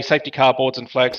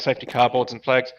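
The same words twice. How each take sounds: First: Radio call-out. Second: Said in the usual way. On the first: Shown as a demonstration. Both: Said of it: "if you hear me say".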